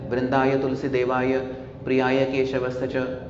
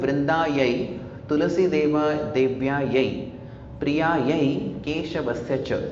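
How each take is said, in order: First: The word endings are pronounced with a short 'a'. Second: The word endings are pronounced with an 'ai' sound. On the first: The speaker calls it wrong. "ये गलत उच्चारण है" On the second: The speaker calls it right. "ऐसा उच्चारण सही है"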